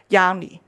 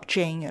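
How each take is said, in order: First: The name begins with a Y sound. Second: The name begins with a J sound. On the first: The owner of the name says it this way. The speaker calls it right. "佢系个名系读Yanni" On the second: An English reader would say it this way. The speaker calls it wrong. "如果你揾读英文人咧，就系读Jane"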